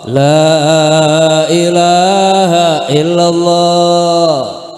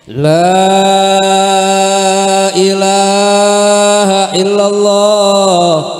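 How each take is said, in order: First: The vowel in 'la' is drawn out long. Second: The same.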